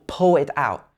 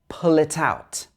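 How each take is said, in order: First: The final consonant sounds are left out. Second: The final consonant sounds are clearly pronounced. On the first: The speaker calls it wrong. "a lot of people would miss out the k and the other consonant sounds at the end of words" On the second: The speaker calls it right. "It should be"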